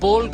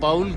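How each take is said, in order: First: The vowel sounds like 'oh' in 'go'. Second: The vowel sounds like 'ow' in 'cow'. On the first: The speaker calls it right. "बॉल कहा जाएगा ना इसको" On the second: The speaker calls it wrong. "वो बाउल गलत होता है"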